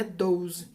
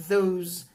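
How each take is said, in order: First: Those said with a hard d; wrong those, like dose. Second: Those with voiced th; careful th in those; correct those. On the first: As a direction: those turned into doze. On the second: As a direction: those said as thoze. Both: Shown as a demonstration. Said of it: "Não é those".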